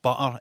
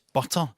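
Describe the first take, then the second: First: The middle t is a glottal stop. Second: The middle t is a clear t.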